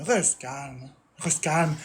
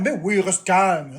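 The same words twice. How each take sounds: First: Lower, much softer mock soothing; hushed parody of calming advice. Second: Slow, sarcastic drawn-out mock; slow sneering parody; sarcastic mockery. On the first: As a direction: murmur it low like a fake therapist. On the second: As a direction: drag it out to mock the advice. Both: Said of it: "mocking chat's advice".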